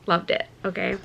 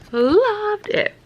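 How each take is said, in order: First: Said in the usual way. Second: Much higher and louder gushing; high excited gush. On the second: Real, not acted. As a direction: squeal it with delight. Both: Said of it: "I loved the first book".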